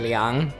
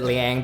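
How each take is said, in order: First: The name is said with a Mandarin pronunciation. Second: The name is said with an American pronunciation. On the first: The speaker calls it right. "it's actually" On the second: The speaker calls it wrong. "American people would pronounce it"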